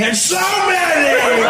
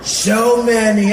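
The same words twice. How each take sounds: First: Sudden high, loud swoop on SO MANY; Donald Trump. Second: Slow and loud, kept low in pitch; Donald Trump. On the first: President mid-speech, voice unpredictably soaring high. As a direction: leap up in pitch and stretch SO MANY out. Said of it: "It was always high". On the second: President mid-speech, slow, lower-set drawn-out impression. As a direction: stretch SO MANY out without lifting the pitch. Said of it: "it was low". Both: Acted.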